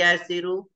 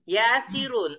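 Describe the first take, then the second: First: The name ends in a vowel, without final n. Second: The name ends with an added n sound. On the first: The name is being directly addressed. "nggak ditanwin di sini" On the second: The name is not being directly addressed. "Kalau nggak munada"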